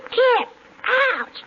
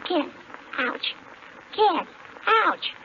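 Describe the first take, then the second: First: Big loud kiss then an ouch; loud animal impersonation. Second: Smacking kiss then a yelp; animal impersonation. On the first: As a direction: punch the kiss, then yelp. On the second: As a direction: kiss sound then a quick ouch. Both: Pretend. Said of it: "can I do my animal impersonation".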